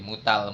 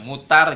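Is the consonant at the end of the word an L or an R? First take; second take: L; R. First: The word ends with an L sound. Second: The word ends with an R sound. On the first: The speaker calls it wrong. "R jadi L" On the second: The speaker calls it right. "jangan R jadi L"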